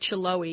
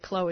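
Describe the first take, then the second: First: The name begins with a ch sound. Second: The name begins with a k sound. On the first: The speaker calls it wrong. "you don't say Chloe" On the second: The speaker calls it right. "you say Chloe"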